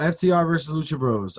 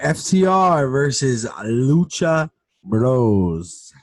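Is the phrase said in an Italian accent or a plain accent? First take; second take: plain; Italian. First: It is spoken in a plain accent. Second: It is spoken with an Italian accent.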